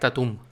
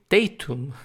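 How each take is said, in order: First: The stress is on the last syllable. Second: The stress is on the first syllable. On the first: The speaker calls it wrong. "acentuado así en la última sílaba" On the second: The speaker calls it right. "acentuado en la primera sílaba"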